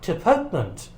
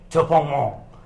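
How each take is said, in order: First: The word is said with English pronunciation. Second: The word is said with French pronunciation.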